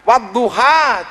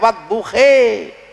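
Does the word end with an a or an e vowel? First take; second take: a; e. First: The word ends with an a vowel. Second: The word ends with an e vowel. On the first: The speaker calls it right. "Wadduha dibaca orang Turki" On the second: The speaker calls it wrong. "keluarnya wadduhe"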